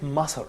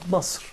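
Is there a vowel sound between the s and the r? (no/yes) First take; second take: yes; no. First: A vowel is heard between s and r. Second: No vowel is heard between s and r. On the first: The speaker calls it wrong. "But we don't say Masr, because again, we don't have vowel here above uh, the letter Sa" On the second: The speaker calls it right. "So we say Masr"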